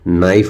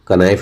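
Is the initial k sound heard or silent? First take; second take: silent; heard. First: The word begins with an n sound. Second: The word begins with a k sound. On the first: The speaker calls it right. "नाइफ बोलते हैं" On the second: The speaker calls it wrong. "कनाइफ नहीं बोलते हैं"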